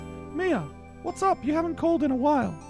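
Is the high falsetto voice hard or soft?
soft. It is a softer, gentler high falsetto. "I can do like a soft one"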